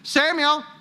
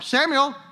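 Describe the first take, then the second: No difference in how they are said.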